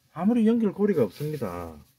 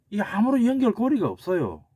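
First: Said in the usual way. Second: 연결고리가 pitched up high and pressed hard; emphatic denial. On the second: Real, not acted. Lecturer rejecting the Namu Wiki claim, emphatic and high.

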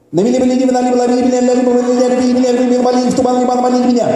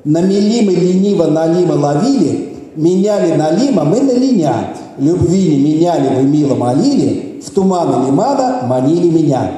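First: Rapid-fire tongue twister, higher, on one note; high monotone speed patter; really fast. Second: Slow, measured recital, lower in pitch; unhurried, lilting demonstration; slow tongue twister. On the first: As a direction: race through it without a breath. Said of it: "say it really fast". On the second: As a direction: say it slowly, phrase by phrase. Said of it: "I'm going to say it slowly first". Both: Shown as a demonstration.

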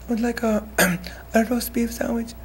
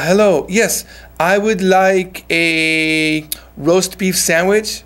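First: Much softer, higher-pitched timid order; small, shy voice. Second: Slow, clearly projected order; clear, audible voice. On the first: Shy customer ordering at Subway, too quiet to be understood. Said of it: "大きい声で喋ってないだけで". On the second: Ordering a roast beef sandwich at Subway, clear and audible. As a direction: say it slowly so the counter hears you. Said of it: "聞こえるように". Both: Shown as a demonstration.

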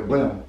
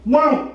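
First: Said in the usual way. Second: Very high, loud short squeal; rat's yelp. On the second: Shown as a demonstration. Director shows the rat popping up, squealing. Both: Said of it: "They go".

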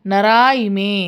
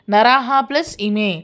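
First: నరా ఇమే with no h after the long ఆ; dropped visarga. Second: Said in the usual way. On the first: Shown as a demonstration. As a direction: say నరా ఇమే open-ended, dropping the breathed h. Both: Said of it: "విసర్గ ఉన్నదాన్ని మనం తీసేసి".

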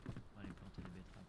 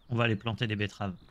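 First: Unvoiced whisper. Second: Said in the usual way. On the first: Whispered repeat while planting beets. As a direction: whisper it like a secret.

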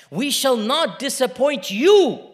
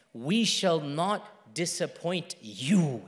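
First: Slow, loud, high pledge; emphatic, ringing assurance; proclaimed promise. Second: Slow, low, soft reassurance; quiet, lingering pledge; gentle promise. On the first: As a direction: declare it with full conviction. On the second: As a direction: comfort with measured, separated words. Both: Retold or imitated. Same promise, gentle then proclaimed.

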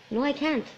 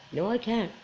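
First: Said in the usual way. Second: "No, I can't." repeated softer, sinking to itself. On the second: Real, not acted. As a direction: let "No, I can't." fade out as a resigned echo. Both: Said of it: "Can I say that in public?".

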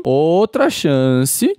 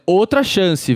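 First: "Outra chance" stretched very slowly, rising at the end; "Outra chance" dragged slowly with a hopeful rise; pleading drawn out. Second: Said in the usual way. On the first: Shown as a demonstration. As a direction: draw out "Outra chance" slowly, begging the Pokémon. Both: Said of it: "ó, Mamoswine, outra chance".

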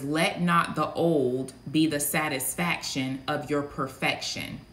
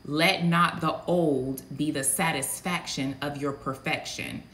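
First: Slow, weighty voice of the Lord, lightly done. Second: Said in the usual way. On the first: Acted. Prophet delivering the word she heard from the Lord, slow and weighty. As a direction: lay it down slow like a divine decree. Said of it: "I heard the Lord speak very loud and clearly". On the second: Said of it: "I don't talk like that".

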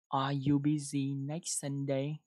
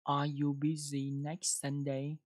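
First: Slow repeated question. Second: Slow model question. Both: Shown as a demonstration. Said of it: "đọc một câu nào".

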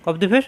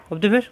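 Both takes have the same delivery.

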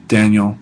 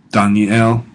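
First: Said in the usual way. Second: "Daniel" said the Hebrew way, dah-nee-EL; Hebrew pronunciation. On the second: Shown as a demonstration. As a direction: give "Daniel" three syllables, dah-nee-el. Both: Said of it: "a couple of proper names".

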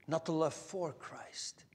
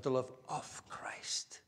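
First: Hushed and slow, "for" set apart with emphasis; stress on "for". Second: Hushed, low, with "of" drawn out; stress on "of". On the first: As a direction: softly point up the word "for". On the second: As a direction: softly lean on the word "of". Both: Shown as a demonstration. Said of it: "Do you hear the difference?".

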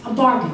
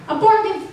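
First: Said in the usual way. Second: High sing-song sales pitch. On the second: Shown as a demonstration. Mom hawking husband's ladder, high perky repeat. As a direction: bargain pitched way up.

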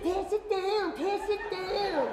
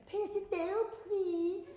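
First: Higher, slow, commanding pass it down; fired-up vendor. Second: Mild, polite request with no energy; just hand it along, dutifully; generic polite vendor. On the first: Pumped vendor telling fans to pass the lemonade, slow and showy. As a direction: drag it out like a showman. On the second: Tired vendor asking fans to pass lemonade, politely flat. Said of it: "I was very generic". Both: Retold or imitated.

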